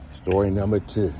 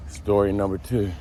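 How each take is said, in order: First: A hint of a radio host intro; echoey announcer voice. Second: Said in the usual way. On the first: Shown as a demonstration. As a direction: announce it like a show title.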